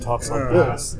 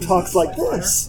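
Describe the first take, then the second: First: The voice is pitched noticeably lower. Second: The voice is at its normal pitch. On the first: This is how the character sounds in the film. "they made his voice a good half octave lower than he normally is" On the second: This is how the actor really sounds. "Because Ben talks like this"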